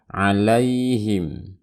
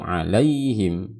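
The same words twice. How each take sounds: First: The word is said plainly without a lilt. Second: The word has a swinging, lilting melody. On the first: The speaker calls it right. "Biasa saja" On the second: The speaker calls it wrong. "Hati-hati jangan diayun, jangan alaihim"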